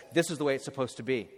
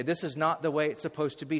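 First: Hurried, brushing it off; quick dismissive read. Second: "not" leaned on firmly, the rest steady; stress on not. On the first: Preacher quoting what nobody says at a tomb, quick and flat. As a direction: rattle off the false comfort quickly. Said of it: "No one stands over a tomb and says". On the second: Preacher correcting the tomb saying, leaning on "not". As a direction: press the word "not" hard. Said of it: "We all stand over the tomb and say". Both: Shown as a demonstration.

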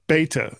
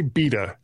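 First: "Beta" as BAY-tuh; long-a pronunciation. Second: "beta" with a long ee; long-e pronunciation. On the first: Host repeating the co-host's version, "Beta" as BAY-tuh. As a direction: copy "Beta" with an ay vowel. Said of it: "how do you guys say it". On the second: Host working out his own usage, "beta" as BEE-tuh. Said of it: "we say beta". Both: Shown as a demonstration.

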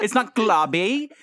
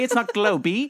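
First: "globby" slowly, with ah vowel and ee ending; wrong short O. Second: "globy" with long O and an added ee ending; wrong final E. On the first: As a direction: say "globby" as glah-bee, drawn out. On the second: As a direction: sound the silent E in "globy" as ee. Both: Shown as a demonstration. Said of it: "it doesn't make exactly an E sound".

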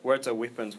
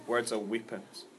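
First: Said in the usual way. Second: Softer and slower, letting the words land; quiet emphasis. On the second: Shown as a demonstration. Preacher repeats the point to the congregation, softly and slowly. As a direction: drop your voice and let it sink in. Repeating the sermon's key line.

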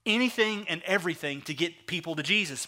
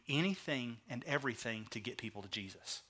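First: Said in the usual way. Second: Very soft, low delivery; earnest, much quieter and lower; hushed emphasis. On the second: Real, not acted. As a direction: let the key point sink to a hush. Key point, dropped then repeated.

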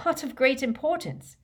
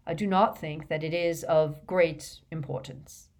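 First: High-pitched disbelieving echo of the words; disbelief, voice jumping high; incredulous. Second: Said in the usual way. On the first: A narrator's reading. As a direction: throw it back as an incredulous question. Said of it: "repeated Harry incredulously".

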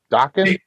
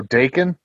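First: "Daken" said DOCK-en, questioning; Daken as DAH-ken. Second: "Daken" said DAY-ken; Daken with long A. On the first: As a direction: say "Daken" with an open "ah". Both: Shown as a demonstration. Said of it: "Is it Daken or Daken?".

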